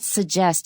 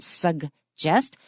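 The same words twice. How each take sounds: First: The G sound in the middle is dropped. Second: The G sound in the middle is clearly pronounced. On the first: The speaker calls it wrong. "not suggest in American" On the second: The speaker calls it right. "Remember to say those G's"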